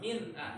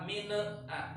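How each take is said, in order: First: The n is held clearly before the vowel. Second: The n is released with an extra bounce. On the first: The speaker calls it right. "Ini min jelas" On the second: The speaker calls it wrong. "Yang salah min a. ... Tidak boleh pakai pokola"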